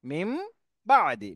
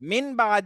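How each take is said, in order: First: The first word ends with an m sound. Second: The first word ends with an n sound. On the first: The speaker calls it right. "বা আসার কারণে এই নুন সাকিনটা মিম হয়ে যাবে" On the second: The speaker calls it wrong. "মিন বাদি হওয়ার কথা ছিল, কিন্তু মিন বাদি না হয়ে"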